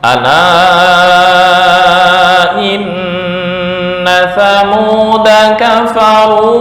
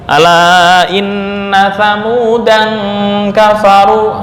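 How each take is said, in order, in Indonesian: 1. Kata thamuda berakhir dengan vokal pendek. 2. Kata thamudan berakhir dengan bunyi n. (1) "Da di situ pendek" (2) "malah fatal"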